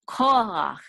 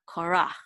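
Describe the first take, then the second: First: The stress is on the first syllable. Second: The stress is on the second syllable. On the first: The speaker calls it right. "the accent is on the first syllable ko, not rach" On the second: The speaker calls it wrong. "not korach"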